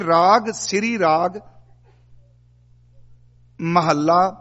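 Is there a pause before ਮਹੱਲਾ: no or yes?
yes. There is a pause before the final word. The final word belongs with the numeral that follows. The speaker calls it right. "ਇੱਥੇ ਰਾਗ ਸ੍ਰੀ ਰਾਗ ਅਰਧ ਵਿਸ਼ਰਾਮਕ ਹੈ"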